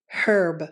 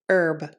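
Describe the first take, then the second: First: The word starts with an h sound. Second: The word starts without an h sound. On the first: This is how it is said in some other countries. "they pronounce it with the H sound" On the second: This is how it is said in the US. "This word is pronounced herb in the U S"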